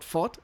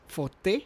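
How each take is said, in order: First: Fort said as one syllable with a silent e, like the English word; the wrong way, Fort rhyming with sport. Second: Forte in two syllables, for-teh, with a clear final e; correcting yourself to Forte with the e pronounced; proper Forte. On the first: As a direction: clip it short to Fort, no final vowel. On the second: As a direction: sound the end of Forte as teh, the Italian way. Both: Shown as a demonstration. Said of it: "very important for them that I'm saying Forte".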